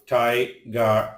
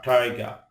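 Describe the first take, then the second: First: "tiger" broken into two separate syllables; "tiger" with a gap mid-word; split syllables. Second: Said in the usual way. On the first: Shown as a demonstration. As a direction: sound out "tiger" slowly in syllables. Word split by syllable, then whole.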